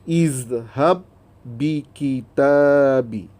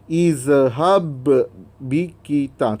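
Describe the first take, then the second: First: The first b merges straight into the next b. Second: The first b is released with a separate bounce. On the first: The speaker calls it right. "Terus masukkan bunyi huruf ba yang kedua tu" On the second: The speaker calls it wrong. "Itu dah jadi uh, bacaan qalqalah. ... Tu salah"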